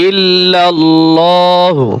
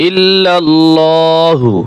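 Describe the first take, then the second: Both takes have the same delivery.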